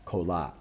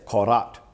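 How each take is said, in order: First: The middle consonant is an L sound. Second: The middle consonant is a rolled R. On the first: This is how most people in the region say it. "All the R's are just pronounced here as an L" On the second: This is the less common way it is said. "It's a hard rolled R"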